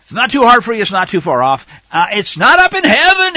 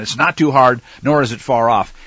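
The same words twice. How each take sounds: First: High, loud, mocking emphasis; sarcastic scripture reading. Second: Said in the usual way. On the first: Preacher mocking the lie that the law is too hard. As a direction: throw the verse back at the doubters. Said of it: "quite a bit of sarcasm in here". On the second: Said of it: "doesn't just make it as a declarative statement".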